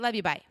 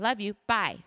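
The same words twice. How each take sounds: First: It is said quickly and offhandedly. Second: It is said warmly and sincerely. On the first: It is said out of habit. The speaker calls it wrong. "instead of like, hey" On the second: The love is meant with intention. The speaker calls it right. "Do you hear the difference? It sounds so much like a real"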